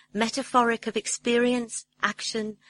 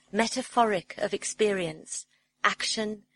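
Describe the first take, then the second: Both takes have the same delivery.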